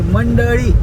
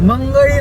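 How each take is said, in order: First: The middle consonant is a d sound. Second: The middle consonant is a g sound. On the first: The speaker calls it right. "नाही मंडळी" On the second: The speaker calls it wrong. "मंगळी नाही"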